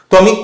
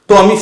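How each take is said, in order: The two takes are said the same way.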